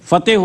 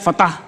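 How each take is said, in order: First: The second syllable sounds like 'teh'. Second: The second syllable sounds like 'tah'. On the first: The speaker calls it right. "फतेह होता है" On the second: The speaker calls it wrong. "फतह नहीं होता"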